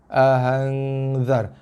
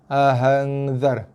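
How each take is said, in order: The two takes are said the same way.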